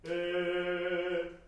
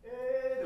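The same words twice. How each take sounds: First: えー struck at once and held loud on a level note; supported, struck vowel. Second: えー as a short, high, falling, unsupported sound; wrong vowel production. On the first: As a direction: pop the えー out from the diaphragm and sustain it. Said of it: "それをポンと打つように". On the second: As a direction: demonstrate the faulty えー, loud and dropping off. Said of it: "ではないはず". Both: Shown as a demonstration.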